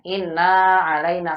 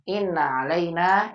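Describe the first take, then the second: First: The vowel of inna is drawn out long. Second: The vowel of inna is kept short. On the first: The speaker calls it wrong. "Dipanjangin innanya. Inna alaina salah" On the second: The speaker calls it right. "Yang betul innanya pendek"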